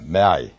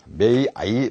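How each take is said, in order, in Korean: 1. 두 모음이 합쳐져서 짧고 단순한 모음 하나가 됩니다. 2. 두 모음 소리를 모두 충분히, 따로따로 발음합니다. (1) "그냥 단모음화되면 may I" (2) "이게 똑같이 나오면 may I 하려니까 좀 복잡하니까"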